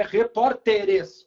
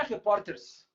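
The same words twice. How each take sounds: First: "repórteres" slow and loud, full -te-res ending; correct plural. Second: "repórteres" squashed to "repórters", no final e; "repórteres" in three syllables, ending like "repórters"; wrong plural. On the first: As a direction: sound every syllable of "repórteres": re-pór-te-res. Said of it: "plural é repórteres". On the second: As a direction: drop the last vowel of "repórteres", ending in -ters. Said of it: "o plural não é". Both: Shown as a demonstration.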